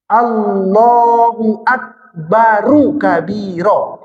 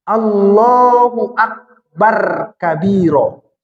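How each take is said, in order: First: Akbar ends with a linking u before kabiro. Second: Akbar ends without a vowel before kabiro. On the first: The speaker calls it right. "Yang benar" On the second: The speaker calls it wrong. "Jangan baca begini. ... Salah itu"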